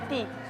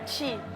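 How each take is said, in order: First: The t is plain, with no hiss. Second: The t is hissed, like a 'chi' sound. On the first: This is how it is said in João Pessoa. "em João Pessoa é ti" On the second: This is how it is said in Brasília. "em Brasília, por exemplo, o T é ti"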